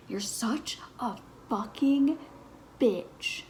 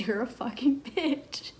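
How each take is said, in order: First: A touch of a mock snarl, higher; mildly fierce, half-performed swear; retold insult. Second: A touch of a mock snarl, higher; mildly fierce, half-performed swear; retold insult again. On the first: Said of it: "the devil came out of me". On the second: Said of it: "the devil came out of me and I said".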